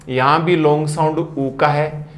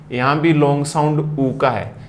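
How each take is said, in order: Both takes have the same delivery.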